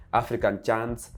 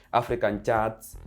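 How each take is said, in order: Both takes have the same delivery.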